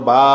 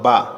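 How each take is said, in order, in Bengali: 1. স্বরধ্বনিটি টেনে দীর্ঘ করে উচ্চারণ করা হয়। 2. স্বরধ্বনিটি হ্রস্ব ও ঝটপট। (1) "একালিফ করে টান দিয়ে পড়তে হবে" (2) "হরকতের উচ্চারণ তাড়াতাড়ি করিয়া পড়িতে হয়"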